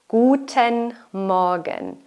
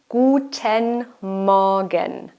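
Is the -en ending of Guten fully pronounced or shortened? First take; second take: fully; fully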